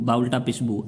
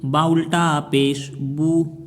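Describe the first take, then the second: First: The final vowel is cut short. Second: The final vowel is drawn out long. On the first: The speaker calls it wrong. "ऐसे नहीं पढ़ेंगे" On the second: The speaker calls it right. "एक एक अलिफ के बराबर में खींचा"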